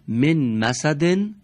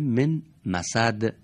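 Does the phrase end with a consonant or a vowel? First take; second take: vowel; consonant. First: The phrase ends with a vowel and n. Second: The phrase ends on a bare consonant. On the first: "تنوین جر و یا تنوین رفع" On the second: "در هنگام وقف اون حرکت به سکون تبدیل میشه"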